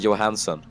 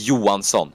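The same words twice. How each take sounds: First: It is said with an English pronunciation. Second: It is said with the native pronunciation. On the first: "I always pronounce his name Jesper Johansson, like the like the English people do" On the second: "it's pronounced Johansson"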